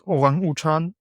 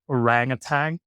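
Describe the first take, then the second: First: It is pronounced the Indonesian way. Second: It is pronounced the English way. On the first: "it's pronounced orang utan in Indonesian" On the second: "in English, I think it's orangutan"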